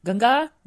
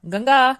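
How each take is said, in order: First: A rising call to his wife. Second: A second, louder and higher call for his wife. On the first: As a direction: call her name with a lift at the end. (ಹೆಂಡತಿಯನ್ನು ಏರುದನಿಯಲ್ಲಿ ಕರೆಯುವುದು) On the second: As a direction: call her name again, louder and higher. (ಹೆಂಡತಿಯನ್ನು ಇನ್ನೂ ಜೋರಾಗಿ ಕರೆಯುವುದು) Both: Acted. Husband calls his wife.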